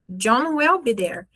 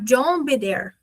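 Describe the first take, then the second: First: The word will is said in full. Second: Will is contracted and joined onto John.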